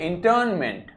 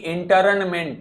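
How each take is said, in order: First: The r sound is very light, almost silent. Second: The r sound is fully and clearly pronounced. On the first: The speaker calls it right. "रा को बहुत हल्का सा बोलिए, ना ही बोलिए" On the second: The speaker calls it wrong. "रा को पूरा नहीं बोलना है कभी भी, इसको ऐसे नहीं बोलेंगे कि"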